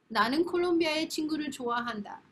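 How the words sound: It is said in a warm, convincing tone.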